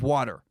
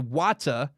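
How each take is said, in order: First: It is said in an American accent. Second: It is said in a British accent. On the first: "instead of water" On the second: "They say Wata"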